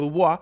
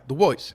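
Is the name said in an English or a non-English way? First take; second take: non-English; English. First: The name is said in its original, non-English way. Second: The name is said in an English-sounding way. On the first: This is the name's original form. "Yo siempre digo Du Bois porque al parecer esa era el, la forma de pronunciar el apellido originalmente" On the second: This is how the man himself said his name. "debido a que hablaba inglés primariamente, decía Du Bois"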